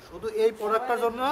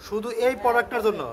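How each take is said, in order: Both takes have the same delivery.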